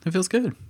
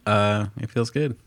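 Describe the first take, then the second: First: It is said in a brighter, upbeat voice. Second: It is said in a low, flat voice. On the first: The speaker calls it right. "let me try it again. That's better" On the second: The speaker calls it wrong. "I know I said that with a low tone there"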